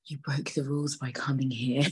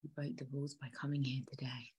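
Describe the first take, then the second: First: Soft-edged, slightly lowered acted line; acting the girlfriend. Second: Acted whisper. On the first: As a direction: play her confronting the dad, voice held down. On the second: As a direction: breath-only whisper as the girlfriend. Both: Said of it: "my acting is on point".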